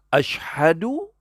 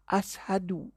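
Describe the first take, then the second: First: The word is said with an 'sh' sound. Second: The word is said with a plain 's' sound. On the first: The consonant is produced correctly. The speaker calls it right. "tu betul" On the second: The speaker cannot produce the correct consonant. The speaker calls it wrong. "Dia tak boleh sebut syim"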